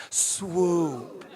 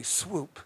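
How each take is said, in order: First: "Swoop" drawn out with a chuckle; swoop with a laugh. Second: Said in the usual way. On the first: Shown as a demonstration. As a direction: lead the room through it, laughing. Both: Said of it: "Can you say it with me?".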